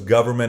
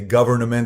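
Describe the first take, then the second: First: The N in the middle is silent. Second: The N in the middle is pronounced.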